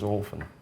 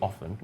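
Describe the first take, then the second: First: The first vowel is a long O. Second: The first vowel is a short O. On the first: "They're ascribing that sound a long O" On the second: "the first sound in that word, which is a short O"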